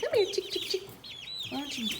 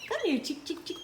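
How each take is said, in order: First: Very high coaxing call, chick chick; calling chickens. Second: High coaxing call to the chicks; calling chickens. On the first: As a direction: sing the call up high to lure them. Coaxing chicks again, higher. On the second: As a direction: coax the chicks over sweetly. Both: Real, not acted.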